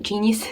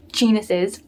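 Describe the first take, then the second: First: "genius" said instead of "genuses", JEE-nee-us; mispronounced genius. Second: "genuses" said JEE-nuh-siz, laughing it off; corrected genuses. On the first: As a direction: stumbles into "genius", JEE-nee-us, then stops. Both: Real, not acted.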